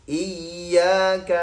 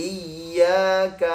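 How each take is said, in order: No difference in how they are said.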